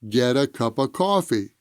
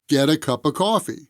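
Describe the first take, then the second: No difference in how they are said.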